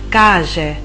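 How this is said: The middle consonant is a strong 'sh' sound. This is how it is said in Argentina. "in Argentina si direbbe"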